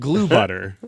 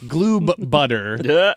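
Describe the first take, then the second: First: The first word ends without any B sound. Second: The first word ends with a clear B sound. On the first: The speaker calls it wrong. "not glue butter" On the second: The speaker calls it right. "hit the B on Gloob"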